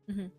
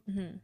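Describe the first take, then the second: Both takes have the same delivery.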